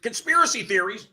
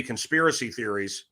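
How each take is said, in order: First: High, incredulous echo; losing it. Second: Said in the usual way. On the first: Retold or imitated. To the person hiring him, retold incredulous outrage. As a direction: throw it back in retold disbelief. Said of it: "And I lost it". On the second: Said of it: "the person that is hiring me says".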